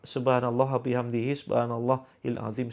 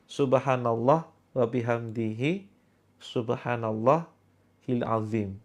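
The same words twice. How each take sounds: First: The phrase is recited at a fast pace. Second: The phrase is recited at a slow pace. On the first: "Tinggal dipercepat"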